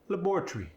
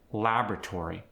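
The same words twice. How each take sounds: First: The vowel before the final R-Y is dropped. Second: The vowel before the final R-Y is kept.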